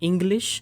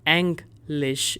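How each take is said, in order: First: It is pronounced like the English word. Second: It is pronounced with German sounds. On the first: The speaker calls it wrong. "you're not pronouncing this as English" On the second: The speaker calls it right. "English is the correct pronunciation"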